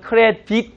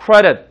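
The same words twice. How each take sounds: First: "credit" as "cre-deet" with a tense ee; wrong long i. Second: "credit" punched as "CRED-et"; lax short i. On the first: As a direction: say "credit" stiffly, ending in "deet". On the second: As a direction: stress the first syllable of "credit", short lax ending. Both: Shown as a demonstration. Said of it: "credit 아니라 credit".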